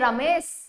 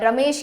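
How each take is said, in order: First: The name ends with an s sound. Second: The name ends with an sh sound. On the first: This is how local dialect speakers say it. "श को स कहते हैं" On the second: This is the standard pronunciation. "रमेश की जगह"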